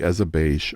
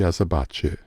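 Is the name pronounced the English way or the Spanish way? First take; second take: English; Spanish. First: The name is said with an English pronunciation. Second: The name is said with a Spanish pronunciation.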